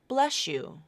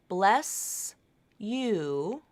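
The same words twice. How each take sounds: First: An SH sound replaces the S and Y. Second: An S sound links into the Y sound. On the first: "this S H sound will be substituted instead" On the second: "you can pronounce it that way. You don't have to link it with this assimilation"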